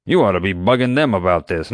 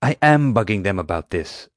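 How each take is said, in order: First: You ought to be bugging them, with You pushed a little; a firm push on You; stress on You. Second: I am bugging them, with am hit hard; stress on am. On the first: Doc retorting to Atmani, lightly stressing You. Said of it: "Doc retorted". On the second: Atmani exclaiming back at Doc, punching am. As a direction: lean on am in protest. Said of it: "Atmani exclaimed". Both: Acted.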